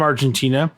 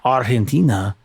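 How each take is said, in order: First: It is said with a plain English pronunciation. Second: It is said with a Spanish-style pronunciation.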